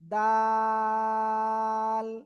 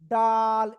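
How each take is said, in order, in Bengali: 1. স্বরটি টেনে দীর্ঘ করে বলা হয়। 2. স্বরটি হ্রস্ব, টেনে বলা হয় না। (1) "লাগিয়ে তিন আলিফটা নিয়ে উচ্চারণ করতে হবে" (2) "এই যে ডাল এরকম বলা যাবে না"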